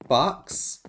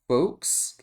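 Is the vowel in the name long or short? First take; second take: short; long. First: The vowel is short, as in the animal. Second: The vowel is long, as in over. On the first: The speaker calls it wrong. "like fox, like a like an animal" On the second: The speaker calls it right. "Take the O and over. Like folks?"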